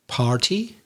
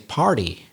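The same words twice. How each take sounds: First: The middle consonant is a clear T sound. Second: The middle consonant sounds like a D. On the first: "some people might say" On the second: "in American English gets pronounced as if it were a letter D"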